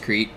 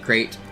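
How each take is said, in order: First: The vowel sounds like 'ee'. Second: The vowel sounds like 'ay'. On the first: This is the island's usual name. "I know it's Crete" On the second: This is how a cartoon song says it. "Yakko pronounces it Crate"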